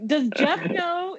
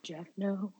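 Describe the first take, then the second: First: Higher, slow, drawn-out question; deadpan line. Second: Pausing quote. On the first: Fan quoting the old actor's line slowly and higher. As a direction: ask it slowly, oddly innocent. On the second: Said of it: "like, pausing". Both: Retold or imitated.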